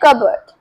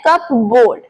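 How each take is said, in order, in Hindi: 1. यह एक शब्द की तरह बोला जाता है, इसमें कोई p नहीं। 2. यह दो हिस्सों में बोला जाता है, और इसमें p सुनाई देता है। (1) "बट इसे बोलते हैं कबर्ड" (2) "बहुत सारे लोग इसे बोलते हैं कप बोर्ड"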